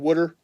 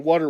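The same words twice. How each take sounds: First: It is said in a Philadelphia accent. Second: It is said in a general American accent. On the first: This is how people in Philly say it. "in Philly we, we don't say water, we say water" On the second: This is how people outside Philly say it. "we don't say water"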